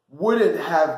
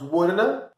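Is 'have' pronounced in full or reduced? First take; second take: full; reduced. First: The word have is said in full. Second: Have is reduced to a short uh sound.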